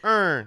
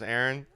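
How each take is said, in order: First: The name is squeezed into one drawled syllable. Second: The name is said plainly with two syllables. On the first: "He goes, Ern" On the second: "My brother's name is Aaron"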